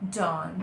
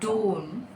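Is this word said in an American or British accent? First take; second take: American; British. First: The word is said in an American accent. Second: The word is said in a British accent. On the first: "in American English it is dawn" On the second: "in British English it is dawn, like dawn"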